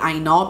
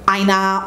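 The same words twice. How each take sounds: First: The name is said with Yoruba pronunciation. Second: The name is said with anglicized pronunciation. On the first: The speaker calls it right. "that's the actual pronunciation of her surname" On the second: The speaker calls it wrong. "not Aina"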